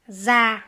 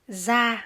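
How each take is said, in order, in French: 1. Il commence par un z sonore. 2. Il commence par un z sonore.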